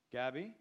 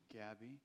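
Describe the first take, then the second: First: Loud, questioning echo; questioning repeat. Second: Small, soft, meek reply. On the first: Farmer repeating the boy's name, loud and questioning. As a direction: repeat the name back in surprise. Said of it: "repeated the man". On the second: Boy answering the farmer's question, meek and soft. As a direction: answer timidly, quietly. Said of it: "came the meek response". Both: A narrator's reading.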